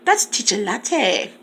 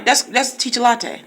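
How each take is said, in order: First: "Teacher Latte" said slowly and carefully; slow down to get the name right; slow correction. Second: Said in the usual way. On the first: Shown as a demonstration. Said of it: "Sorry, baby". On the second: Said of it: "I'm sorry".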